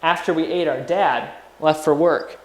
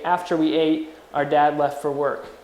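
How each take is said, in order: First: There is no pause after "ate". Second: There is a pause after "ate".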